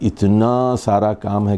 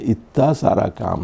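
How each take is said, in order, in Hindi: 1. नून की आवाज़ पूरी तरह बोली जाती है। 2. नून की आवाज़ छोड़ दी जाती है और मिट जाती है।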